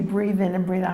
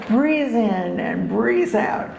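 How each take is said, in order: First: It is said in a plain, ordinary accent. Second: It is said with a German accent. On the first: The speaker calls it wrong. "you're not saying it right" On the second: The speaker calls it right.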